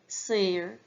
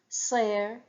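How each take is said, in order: First: It is said with the Connacht dialect pronunciation. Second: It is said with the Munster dialect pronunciation. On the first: "In Connacht, they'll pronounce it" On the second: "That's the Munster pronunciation"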